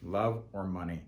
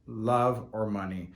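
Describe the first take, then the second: First: Said in the usual way. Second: Love or money slowed, each word weighted; slow emphatic. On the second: Shown as a demonstration. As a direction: lean on Love or money slowly. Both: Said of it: "two reasons why".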